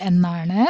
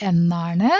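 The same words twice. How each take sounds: No difference in how they are said.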